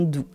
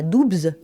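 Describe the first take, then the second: First: The final consonants are silent. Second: The final consonants are pronounced. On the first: The speaker calls it right. "mais bien" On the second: The speaker calls it wrong. "On ne dit donc pas"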